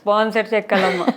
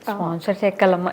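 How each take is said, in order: First: It is said in a harsh, rude tone. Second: It is said in a gentle, affectionate tone. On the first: The listener will feel resentful. The speaker calls it wrong. "ఇది not ఓకేనా?" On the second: The listener will accept and think about it. The speaker calls it right. "ఇది okay"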